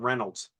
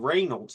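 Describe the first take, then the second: First: The first syllable does not sound like 'ray'. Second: The first syllable sounds like 'ray'. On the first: This is the name they always used. The speaker calls it wrong. "not Reynolds" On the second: This is the family's true name. The speaker calls it right. "It's R E Y, Ray Reynolds"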